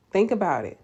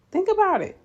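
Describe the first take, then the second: First: Said in the usual way. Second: High, loud, emphatic push; insistent urging. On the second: Real, not acted. Urging nurses to consider their abundance, high insistence. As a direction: drive the point home with a leap in pitch.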